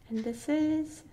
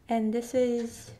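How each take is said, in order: Both takes have the same delivery.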